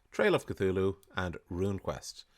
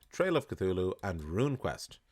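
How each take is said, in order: Both takes have the same delivery.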